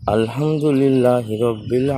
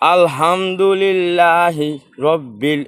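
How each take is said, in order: First: It is recited at a moderate, middle volume. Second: It is recited loudly, at high volume. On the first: This is the correct way to recite in prayer. The speaker calls it right. "এটা কিন্তু আমার জোরেও হলো না আস্তেও হলো না" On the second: This is too loud for the prayer. The speaker calls it wrong. "এটা হচ্ছে জোরে"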